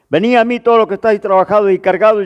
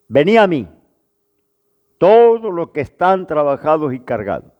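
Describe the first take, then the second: First: It is read straight through without pausing. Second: There is a pause after the first phrase. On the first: The speaker calls it wrong. "Vamos a leerlo corrido sin pausa" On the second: The speaker calls it right. "Ahora hagamos las pausas"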